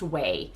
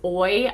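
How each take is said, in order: First: The name is said like 'way'. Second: The name is said like 'oy'. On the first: The speaker calls it right. "it's pronounced way" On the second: The speaker calls it wrong. "I kept pronouncing this as Oi"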